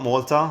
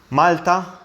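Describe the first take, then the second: First: It is said with an English pronunciation. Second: It is said with a Maltese pronunciation. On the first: The speaker calls it wrong. "not Malta, Malta is the English pronunciation" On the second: The speaker calls it right. "but the country name is Malta"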